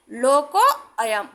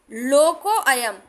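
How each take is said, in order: First: लोको अयम drawn out, the two words held apart; slow demo. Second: लोको अयम slowed, a clear आ joining the two words; slow demo. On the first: Teacher again demonstrating लोको अयम for the class. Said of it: "तो हम इसका उच्चारण आ पढ़ेंगे". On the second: Teacher demonstrating the avagraha in लोको अयम. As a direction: say लोको अयम slowly with an open आ. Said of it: "इसका उच्चारण हमेशा आ में पढ़ा जाएगा". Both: Shown as a demonstration.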